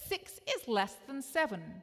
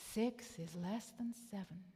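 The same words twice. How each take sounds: First: It is said in a plain, ordinary voice. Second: It is said in a grave, solemn voice.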